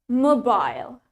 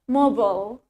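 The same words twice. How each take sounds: First: The word is said in a British accent. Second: The word is said in an American accent. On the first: "in British accent, we pronounce it as mobile" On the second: "in American accent, we say it mobile"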